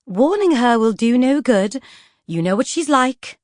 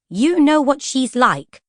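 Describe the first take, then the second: First: A patient lady's sigh of reason; placid Lady Feroza. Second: Higher, slow, hurt echo; recalled echo of Lady Feroza. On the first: Acted. Lady Feroza reasoning with Poisons, calm and genteel. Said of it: "Lady Feroza replied placidly". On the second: Retold or imitated. Vanya replaying the books' words, hurt. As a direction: repeat the sting. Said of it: "That was what Lady Feroza had said".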